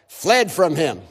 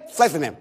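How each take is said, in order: First: It is said at a normal speed. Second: It is said as fast as possible.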